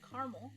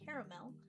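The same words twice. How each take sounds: First: The word is said with two syllables. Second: The word is said with three syllables. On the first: This is the common North American form. "North Americans often say caramel, two syllables" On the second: This is an East Coast and Southern form. "East Coasters and Southerners might say caramel"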